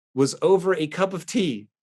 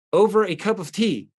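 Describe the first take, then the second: First: Said in the usual way. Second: Incredulous. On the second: Real, not acted.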